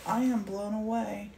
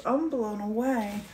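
First: "am" said in full and stressed. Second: Said in the usual way. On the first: Real, not acted. Amazed by what Martin painted, stress on "am". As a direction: lean on the word "am" for sincere emphasis. Repeats it uncontracted for emphasis.

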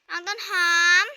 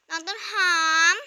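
First: Loud call, name pulled up at the end; calling out again. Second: Loud rising call across the house. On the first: Big sister calls little sister a second time, loud call. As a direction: shout her name once more, rising. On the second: Big sister calls for little sister, loud call. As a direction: call her name loudly, voice lifting at the end. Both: Acted.

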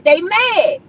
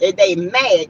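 First: "They mad" said again higher, with a falling finish on mad; mocking emphasis on "mad"; emphatic repeat. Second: Said in the usual way. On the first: Real, not acted.

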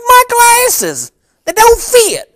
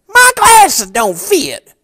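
First: Much higher, louder put-on voice of a grumpy customer; disguised complaining customer. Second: Much higher, slow put-on voice of a grumpy customer; disguised complaining customer. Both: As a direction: fake a whiny customer to tease an old friend. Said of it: "here's exactly how I said it".

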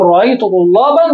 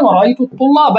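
First: طلابًا with nunated "-an" ending; tanwin with fatha. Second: الطلاب ending in open "-a", no n; fatha without tanwin. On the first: Teacher shows accusative case, طلابًا ending in "-an". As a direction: sound the final n: طلابًا as "tullaban". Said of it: "إذا طلابًا هنا منونة". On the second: Teacher shows the definite noun, الطلاب without final n. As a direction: say الطلاب as "at-tullaba". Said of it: "ليست منونة". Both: Shown as a demonstration.

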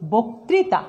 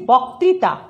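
First: বক্তৃতা as "boktrita", slowly; closed "o" after b in বক্তৃতা; correct spoken vowel. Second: বক্তৃতা as "bawktrita", slowly; as-written vowel. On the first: Teacher models pronunciation, বক্তৃতা with closed "o". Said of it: "উচ্চারণ করছি". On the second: Teacher reads what is written, বক্তৃতা with open "aw". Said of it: "লিখেছি". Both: Shown as a demonstration.

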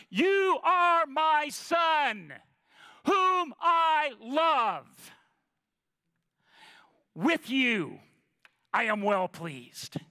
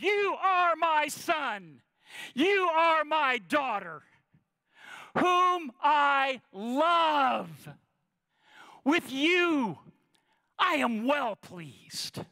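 First: Slow, booming voice from heaven; voice of God thundering. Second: Slow, high tender proclamation from heaven; voice of God. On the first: Preacher voicing God from heaven, slow and booming. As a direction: proclaim it slowly like God from above. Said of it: "words thundered from above". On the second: God telling each listener, slow and tender. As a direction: speak it slowly as God blessing his children. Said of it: "God looks down at you and says". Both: Acted.

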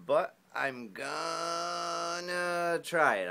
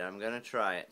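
First: Slow, high and loud; drawn out. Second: Said in the usual way. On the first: Shown as a demonstration. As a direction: stretch every word out.

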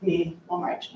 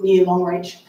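First: Near Longreach, near said clearly and set apart; stress on near. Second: Near Longreach, with the word near stressed. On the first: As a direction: softly press near to mark the contrast. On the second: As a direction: lean on near, not Longreach. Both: Shown as a demonstration. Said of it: "not Longreach".

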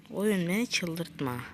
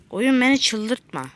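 First: Muttered plea. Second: Exasperated plea. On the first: Repeats line, softer second. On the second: Repeats line, louder first. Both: Real, not acted.

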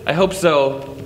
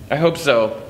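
No difference in how they are said.

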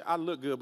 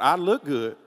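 First: Said in the usual way. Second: "look" leaned on, pitched up over the rest; stress on "look". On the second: Shown as a demonstration. Preacher repeats the skipped first part for the congregation, stress on "look". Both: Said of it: "Don't miss the first part".

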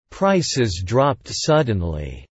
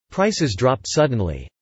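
First: Slowed right down for learners; slow model reading. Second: Said in the usual way. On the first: Shown as a demonstration. Teacher models the sentence slowly for learners. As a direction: read it slowly and clearly for the class. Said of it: "repetition drill, slow model take". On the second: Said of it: "repetition drill, normal-speed take".

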